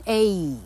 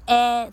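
First: A as a drawn-out "ay"; A pronounced "ayyy", held long; long letter-name A. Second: A as the open vowel in "cat"; A pronounced æ, not "ay"; stressed short A. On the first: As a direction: glide A from eh to ee, like the alphabet letter. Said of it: "它在字尾一不发音的时候念A". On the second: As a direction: say A as a loud, held "æ". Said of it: "它在重音的时候念A". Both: Shown as a demonstration.

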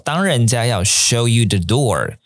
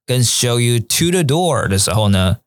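First: The door with no preposition; slow careful read. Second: To said clearly before the door; slow, so the word to stands out; stress on to. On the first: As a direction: show you the door said slowly, no to. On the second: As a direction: show you to the door with to clear. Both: Shown as a demonstration. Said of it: "我再念一次哦".

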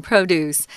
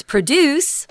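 First: Produce as PRO-duce, first syllable stronger; stress on first syllable. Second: Produce as proDUCE, weak first syllable; stress on second syllable. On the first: Teacher correcting learners on the noun, produce stressed on PRO. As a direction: say produce as the noun, PROH-doos. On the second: Teacher showing learners the mistaken reading, produce stressed on DUCE. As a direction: say produce like the verb, pruh-DOOS. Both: Shown as a demonstration. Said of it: "the stronger syllable is on pro".

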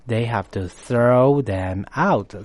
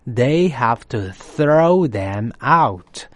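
First: Said in the usual way. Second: Very slow with weight on throw; slow model read. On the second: Shown as a demonstration. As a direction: spell it out slowly for learners. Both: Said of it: "Throw out呢".

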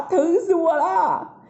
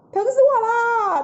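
First: Sobbing in pain. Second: Cry of pain. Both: A narrator's reading. Monkey King in headache pain.

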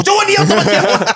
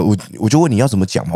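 First: Squeaky cracking high burst. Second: Said in the usual way. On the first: Shown as a demonstration. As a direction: voice shoots up and cracks. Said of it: "突然爆掉。".

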